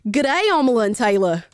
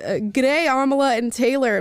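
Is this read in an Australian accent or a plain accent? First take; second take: Australian; plain. First: It is read in a put-on Australian accent. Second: It is read in the speaker's ordinary accent.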